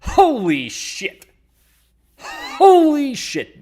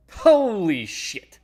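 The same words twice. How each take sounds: First: Slow, loud, much higher drawn-out exclaim; slightly wrong copied voice. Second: Slow, loud, higher drawn-out exclaim; copied voice. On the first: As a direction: stretch it out loud and high, missing the voice. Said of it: "trying to mimic some voice. I didn't get it right". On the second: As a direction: try the borrowed voice again, slow and loud. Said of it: "trying to mimic some voice". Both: Retold or imitated.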